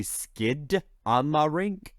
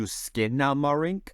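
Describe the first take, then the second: First: "Skid Amarink" with a D closing the first syllable; American version, with D. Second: "Skinamarink" with an N in place of D; Canadian version, with N. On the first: Explaining the American song title, "Skid Amarink" said with D. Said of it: "in America, it's traditionally". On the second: Explaining the Canadian song title, "Skinamarink" said with N. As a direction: say "Skinamarink", first syllable like "skin". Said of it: "in Canada, it was changed to". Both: Shown as a demonstration.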